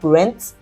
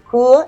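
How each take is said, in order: First: The final ent ending is pronounced aloud. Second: The final ent ending is left silent. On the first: The speaker calls it wrong. "is not" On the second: The speaker calls it right. "the ent at the end is not sounded"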